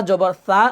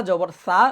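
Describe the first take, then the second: No difference in how they are said.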